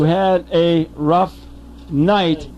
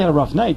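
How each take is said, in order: First: The phrase is spoken slowly and deliberately. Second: The phrase is spoken at a normal speed.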